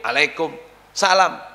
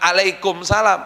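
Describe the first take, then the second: First: It starts with a vowel squeezed in the throat. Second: It starts with a plain vowel after a catch. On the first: The speaker calls it right. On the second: The speaker calls it wrong.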